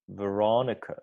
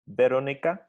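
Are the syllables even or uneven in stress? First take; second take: uneven; even. First: One syllable is strong; the others are reduced. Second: All syllables are equally full and even. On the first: "English version" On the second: "Czech version"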